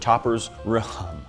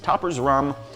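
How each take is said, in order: First: The h is sounded, giving two syllables. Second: The h is silent, giving one syllable.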